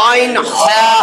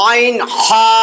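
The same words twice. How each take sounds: No difference in how they are said.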